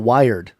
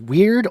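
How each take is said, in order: First: It is said like the word 'wired'. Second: It is said like the word 'weird'. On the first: "I don't know if it's weird or wired" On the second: "I don't know if it's weird or wired"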